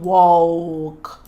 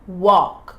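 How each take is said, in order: First: The L sound is pronounced. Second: The L sound is silent. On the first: The speaker calls it wrong. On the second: The speaker calls it right.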